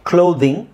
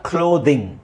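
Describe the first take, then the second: The two takes are said the same way.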